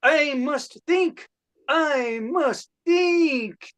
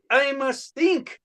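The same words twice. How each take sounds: First: Higher and dragged out slowly; slowing Rodin pondering. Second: Higher, pondering at normal pace; a sculptor musing to himself; Rodin pondering. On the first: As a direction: stretch each word as the thought stalls. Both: Acted. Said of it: "my impression of ... Rodin having a creative block".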